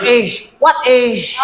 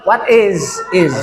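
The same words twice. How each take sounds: First: "is" ending in a hushing sh, pitched high; "is" as "ish". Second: "is" ending in a voiced z; Z sound in "is". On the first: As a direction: mispronounce "what is" as "what ish". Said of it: "Not is". ("is" salah dilafalkan jadi "ish") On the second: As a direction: buzz the end of "is" as "iz". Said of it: "Is lebih kepada Z". ("is" dilafalkan dengan bunyi Z) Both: Shown as a demonstration.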